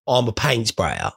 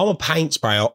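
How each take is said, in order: First: I'm a paint sprayer said slower and lower, leaning on paint; slow emphatic. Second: Said in the usual way. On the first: Shown as a demonstration. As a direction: plant each word of I'm a paint sprayer firmly, slowly.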